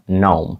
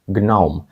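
First: Gnome said as "nohm"; silent g. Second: Gnome said as "g-nohm"; g pronounced. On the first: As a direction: drop the g and start gnome on n. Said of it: "Але G тут глуха". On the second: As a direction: sound the hard g before the n in gnome. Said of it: "що могло бути як". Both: Shown as a demonstration.

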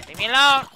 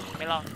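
First: Loud and higher, half-desperate yell; frustrated yell at swarming enemies; yelled leave me alone. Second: Said in the usual way. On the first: Real, not acted. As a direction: shout it at the mobs chasing you. Louder repeat at mobs.

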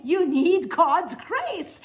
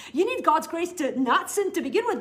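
First: Each word of "you need God's grace" drawn out slow and loud, higher; slowed, weighty "God's grace" for the key point; slow emphasis. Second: Said in the usual way. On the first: Shown as a demonstration.

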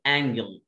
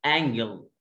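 First: انجل with a hard g; model word. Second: انجل with a hard g like go; model word. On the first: Teacher contrasts the hard g in انجل. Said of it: "اللي فوق ملاك". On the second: Teacher models the hard g in انجل. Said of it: "اللي تحت زاويه". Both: Shown as a demonstration.

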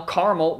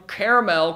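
First: Caramel said CAR-mul; caramel squeezed into "car-mul"; alternative pronunciation. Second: Caramel said CARE-uh-mel; caramel with a full "mel" ending; alternative pronunciation. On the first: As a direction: say caramel in two syllables, first like "car". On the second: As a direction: say caramel in three syllables, first like "care". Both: Shown as a demonstration. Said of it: "whatever the fuck".

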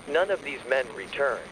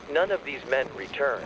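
No difference in how they are said.

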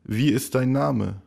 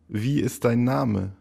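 Both takes have the same delivery.

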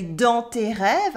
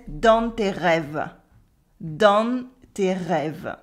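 First: "dans tes rêves" with nasal dans and silent final e; no N and no final schwa in "dans tes rêves"; teacher's standard French. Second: Slow southern French "dans tes rêves", N sounded, rêves in two syllables; southern French: dan-n tay reh-vuh, drawn out; southern French accent. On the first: French teacher showing own way, "rêves" ending silently on v. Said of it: "as I would say". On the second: French teacher copying the character's southern French accent, slow "dans" with an N. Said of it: "pronouncing the N in nasal vowels". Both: Shown as a demonstration.

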